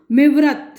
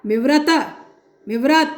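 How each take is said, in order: First: Said in the usual way. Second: मिवरत with the last syllable त stressed; stress on final त. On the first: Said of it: "एक सुर में कहा जाए". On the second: Shown as a demonstration. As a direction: lean on the त that ends मिवरत. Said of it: "त पर बलाघात हो". (मिवरत के अंतिम त पर बलाघात)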